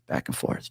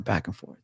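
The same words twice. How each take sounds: First: Dropped low into a voiceless whisper; whispered repeat. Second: Said in the usual way. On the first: Retold or imitated. Father describes his wife's pacing, trailing into a whisper. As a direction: let the repeat sink to a whisper.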